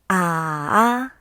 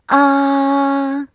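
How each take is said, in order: First: The pitch dips low, then rises. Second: The pitch stays high and level. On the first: "This tone goes down first and then rises" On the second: "The first tone is high and flat"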